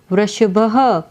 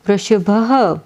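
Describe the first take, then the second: No difference in how they are said.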